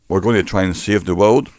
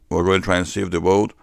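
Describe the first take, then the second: The two takes are said the same way.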